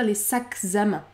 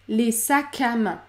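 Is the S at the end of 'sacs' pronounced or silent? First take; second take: pronounced; silent. First: The S at the end of sacs is pronounced. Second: The S at the end of sacs is silent. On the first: The speaker calls it wrong. "Il ne faut pas dire les sacs à main. Ça ne fonctionne pas" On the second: The speaker calls it right. "Le S est muet"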